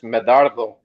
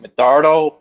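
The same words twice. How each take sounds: First: The name is said with a Spanish accent. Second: The name is said with an English accent. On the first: "you said it in Spanish" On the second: "most people say my name in English like"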